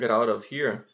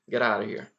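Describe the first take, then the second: First: The t sounds are clear and separate. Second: The t sounds become a quick r-like flap. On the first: "ninguém fala bonitinho assim" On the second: "quando tem um som de T, eles vão colocar um R"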